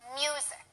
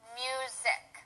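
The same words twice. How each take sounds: First: The stress is on the first syllable. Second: Neither syllable is stressed. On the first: The speaker calls it right. "the stress is on the first syllable" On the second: The speaker calls it wrong. "if we don't use any stress, it would be music"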